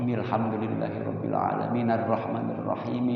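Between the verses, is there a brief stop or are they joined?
joined. The verses are joined without a stop. The speaker calls it right.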